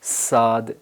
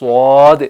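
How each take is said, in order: First: The s sound is thin and light. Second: The s sound is heavy and full. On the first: The speaker calls it wrong. "आवाज़ बारीक हो जाएगी, ये स्वाद नहीं बनेगा बल्कि सीन बनेगा" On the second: The speaker calls it right. "आवाज़ बोल्ड हो जाती है और मुंह में भर जाती है"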